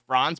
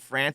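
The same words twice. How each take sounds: First: The vowel is an open ah sound. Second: The vowel sounds like the a in ants. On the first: "hit the ah instead of the ants" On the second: "it's not France"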